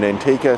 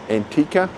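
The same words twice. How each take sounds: First: It is said with an English pronunciation. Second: It is said with a local, non-English pronunciation. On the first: "if you do the English version" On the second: "That's how they pronounce it"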